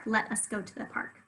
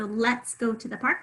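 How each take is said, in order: First: "Let us" said as two separate words; uncontracted form. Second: Said in the usual way. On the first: Shown as a demonstration. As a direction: open out the contraction into "Let us". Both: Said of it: "apostrophe to take the place of U".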